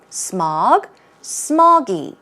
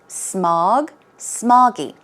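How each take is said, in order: Both takes have the same delivery.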